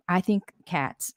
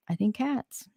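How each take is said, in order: First: Said in the usual way. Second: Secretive whisper on cats; whispered conspiratorially, rising at the end. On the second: Shown as a demonstration. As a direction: breathe it like a secret. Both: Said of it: "Just gonna say it like that".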